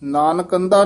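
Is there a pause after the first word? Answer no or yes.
no. The two words run together without a pause. The speaker calls it wrong. "Nanak ਅੰਧਾ ਨੀ ਕਹਿ ਦੇਣਾ"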